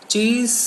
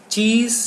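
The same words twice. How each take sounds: Both takes have the same delivery.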